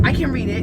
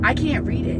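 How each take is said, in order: First: CAN pressed a bit louder with a falling tune; correcting herself by hitting can; stress on can. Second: CAN'T leaned on and falling, with can't pulled out hard; stress on can't. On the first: Correcting herself to viewers, stress on can. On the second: Telling viewers she can't read it, stress on can't. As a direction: push the word can't before she corrects herself. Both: Shown as a demonstration.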